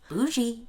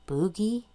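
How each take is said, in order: First: The middle consonant is a soft zh sound. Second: The middle consonant is a hard g sound. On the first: The speaker calls it right. "oh, sorry" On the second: The speaker calls it wrong. "didn't know how to pronounce it"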